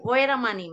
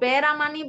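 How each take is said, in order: First: The word begins with a w sound. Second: The word begins with a b sound. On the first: "অনেকে ওয়েরামানি মানে ওই যে এই পেট কাটা ব" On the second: "আমরা তো কেউ কেউ বেরামানি বলি"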